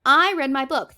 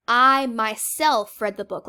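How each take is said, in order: First: Said in the usual way. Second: MYSELF stretched out and punched loud; slow down and hit "myself"; stress on MYSELF. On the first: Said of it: "That would be a sentence". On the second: Shown as a demonstration. Teacher showing an intensive pronoun, stress on "myself". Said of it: "It is intensive".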